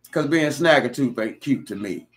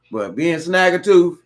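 First: Said in the usual way. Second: "snagger tooth" louder and higher, slowed; emphatic repeat. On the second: Real, not acted. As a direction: lean hard into "snagger tooth".

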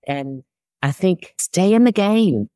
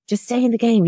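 First: Said in the usual way. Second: "Just stay in the game" lifted much higher, "in" leaned on; emphatic repeat. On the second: Shown as a demonstration. Urging older women not to give up, emphatic high repeat.

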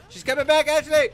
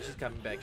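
First: Loud, higher yelled warning; yelling warning. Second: Said in the usual way. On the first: Real, not acted. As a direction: yell the warning to her. Warning teammate loudly.

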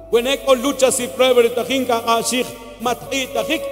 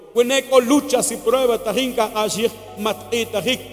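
Both takes have the same delivery.

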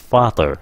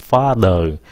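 First: Father with a light t-like th, "fa-ter"; correct pronunciation. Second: Father as "fa-đờ", no final r; wrong pronunciation. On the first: Teacher gives the right word, light th. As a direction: say father with an unaspirated th and final r. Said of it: "nó là mother". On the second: Teacher shows another mistake, Vietnamese đ. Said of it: "không phải là father". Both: Shown as a demonstration.

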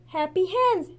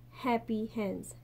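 First: A higher, louder pointed statement; pointed insistence. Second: Slow and soft, half to herself; sad murmur. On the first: Mei Mei showing the fisherman the basket, higher and louder. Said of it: "she said". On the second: Mei Mei missing her hen, saying it slow and soft. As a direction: let the words sink with longing. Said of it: "she said, aloud to herself". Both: A narrator's reading.

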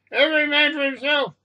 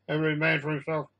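First: High, panicked call to flee; panicked cry. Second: Said in the usual way. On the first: A narrator's reading. Passenger urging everyone to flee, panicked cry.

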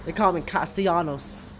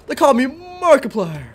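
First: Said in the usual way. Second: Louder, higher dramatic announcement; hammy hero declaration. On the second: Shown as a demonstration. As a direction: proclaim it like an action hero.

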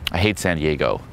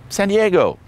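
First: Low, falling mock disapproval; understated acted put-down; deadpan contrarian reply. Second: High-pitched mock-girly answer; perky imitation of her answer; imitated eager girl. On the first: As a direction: contradict her in a lower voice. His contrarian reply in example. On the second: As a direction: sing it out high, falling at the end. Imitates girl answering, versus his reply.

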